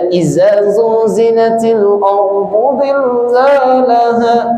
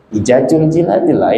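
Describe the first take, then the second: First: The consonants are said with z sounds. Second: The consonants are said with j sounds. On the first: The speaker calls it right. "yang seharusnya dibaca" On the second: The speaker calls it wrong. "Ini jelas kesalahannya"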